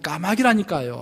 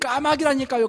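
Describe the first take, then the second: First: It sounds clearly irritated and annoyed. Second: It is shouted loudly and angrily. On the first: The speaker is openly annoyed. "짜증스러운 목소리로" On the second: The speaker has lost patience. "화가 나서 큰 소리로 외쳤습니다"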